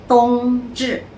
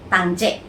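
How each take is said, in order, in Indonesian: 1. Diucapkan dengan bunyi Mandarin. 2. Diucapkan dengan bunyi Hokkien.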